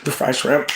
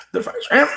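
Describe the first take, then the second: First: Said in the usual way. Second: High lilting repeat. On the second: Shown as a demonstration.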